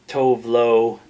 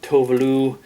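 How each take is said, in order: First: The name is said in an English-style way. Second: The name is said in a Swedish-style way. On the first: The speaker calls it wrong. "I always thought of her as" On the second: The speaker calls it right. "I think she's Swedish, and it's more like"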